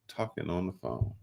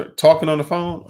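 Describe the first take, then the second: First: Soft, deflated, worn-out repeat; weary repeat. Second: Loud, high burst of exasperation; exasperated outburst. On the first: Host repeating the phone complaint to cohost, quiet and defeated. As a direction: let it sag, exhausted. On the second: Host venting to cohost about phone calls, loud exasperated burst. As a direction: blurt it out, fed up. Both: Real, not acted.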